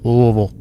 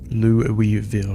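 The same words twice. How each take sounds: First: The name is mumbled, syllables slurred together. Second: The name is pronounced clearly, every syllable distinct. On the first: This is how locals say it. The speaker calls it right. "You gotta say it like you got a bunch of marbles in your mouth" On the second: This is how an outsider says it. The speaker calls it wrong. "I got real verbal beatdown for saying it that way"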